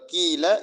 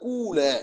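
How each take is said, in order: First: The word is said with an 'ee' vowel. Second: The word is said with an 'oo' vowel. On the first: "தூய கஸ்ரா" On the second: "தூய லம்மாவும் கொடுக்கலாம்"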